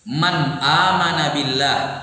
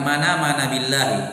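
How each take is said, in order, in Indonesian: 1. Ada hentian glotal yang memisahkan 'man' dan 'amana'. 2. Hentian glotal dihilangkan, dan kedua kata tersambung. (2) "Kadang dihilangkan"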